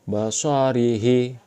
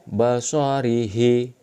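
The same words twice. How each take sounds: No difference in how they are said.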